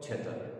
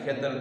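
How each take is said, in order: First: The word begins with a chh sound. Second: The word begins with a kh sound. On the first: "ખનો છ" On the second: "ખનો છ"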